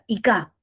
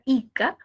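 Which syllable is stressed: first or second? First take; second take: second; first. First: The stress is on the second syllable. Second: The stress is on the first syllable. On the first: It has no meaning. "movemos la sílaba tónica sería ica" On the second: It names a real place. "si tenemos la palabra ica"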